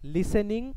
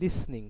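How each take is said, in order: First: A vowel is sounded between s and n. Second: The s runs straight into the n. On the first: The speaker calls it wrong. "লিসেনিং উচ্চারণটা ভুল" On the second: The speaker calls it right. "উচ্চারণটা হচ্ছে লিসনিং"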